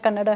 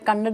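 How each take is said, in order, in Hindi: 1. शब्द पूर्ण 'a' स्वर के साथ समाप्त होता है। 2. शब्द अंतिम व्यंजन पर समाप्त होता है। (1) "कन्नड़ा है" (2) "कन्नड़ नहीं है"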